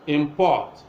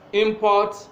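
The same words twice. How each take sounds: First: The stress is on the second syllable. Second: The stress is on the first syllable. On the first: It is a verb. "if it is a verb, stress will be on the second syllable" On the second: It is a noun. "if it is a noun, stress will be on the first syllable"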